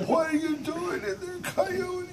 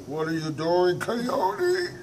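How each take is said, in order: First: High-pitched loud monster cry; monster asking again. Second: High, loud suspicious monster voice; monster asking. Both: Acted. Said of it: "The monster said".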